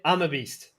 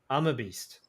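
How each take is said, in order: First: It is said strongly, with confident energy. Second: It is said weakly, without conviction. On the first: The speaker starts to believe it. The speaker calls it right. "pump my chest, be more uh, uplifted" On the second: The speaker does not really believe it. The speaker calls it wrong. "it doesn't feel like I'm a beast"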